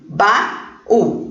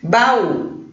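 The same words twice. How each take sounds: First: "baú" split in two, ba-ú, with a gap; syllable by syllable. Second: Said in the usual way. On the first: Shown as a demonstration. Teacher counting syllables for pupils, "baú" broken into ba-ú. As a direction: separate both syllables of "baú". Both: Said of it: "duas sílabas".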